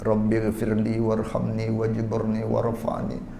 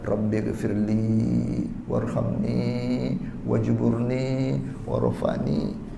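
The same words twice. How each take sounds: First: The final vowels are cut short. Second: The final vowels are held long. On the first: The meaning of the words is changed. The speaker calls it wrong. "Suara rata-rata baca dengan pendek" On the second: The intended meaning is kept. The speaker calls it right. "itu kena baca panjang"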